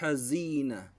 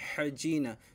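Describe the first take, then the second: First: The middle consonant is a z sound. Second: The middle consonant is a j sound. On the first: The speaker calls it right. "Pero ang tama po ay hazina" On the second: The speaker calls it wrong. "mabibigkas siya na hajina"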